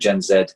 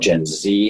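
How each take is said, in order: First: The Z is said 'zed', British style. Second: The Z is said 'zee', American style.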